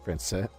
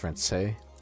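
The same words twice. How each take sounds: First: The final S sound is silent. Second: The final S sound is silent.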